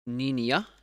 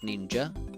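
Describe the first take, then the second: First: It is said the Swedish and Finnish way. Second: It is said the usual English way. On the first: The speaker calls it wrong. "which is how Swedish and Finnish people say it" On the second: The speaker calls it right. "instead of"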